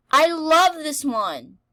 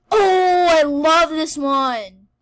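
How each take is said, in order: First: A bit calmer, slow and loud; excited. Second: High, loud, slow gushing squeal; excited squeal. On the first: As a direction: gush about it again. Repeats with less force. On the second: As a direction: squeal over a favourite. Favourite game appears. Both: Real, not acted.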